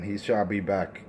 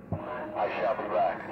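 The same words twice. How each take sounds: First: Said in the usual way. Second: Slow, drawn-out mock movie-villain line; mock tough guy. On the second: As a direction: drag it out like a cheap action hero. Mocking the rival's catchphrase.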